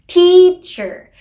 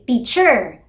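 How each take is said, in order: First: The stress is on the first syllable. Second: The stress is on the second syllable. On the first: The speaker calls it right. "the stressed syllable is in the first syllable" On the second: The speaker calls it wrong. "they don't say teacher. Yun naman ay very Filipino"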